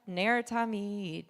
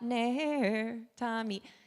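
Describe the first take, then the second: First: The two words run together without a pause. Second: There is a pause between the two words.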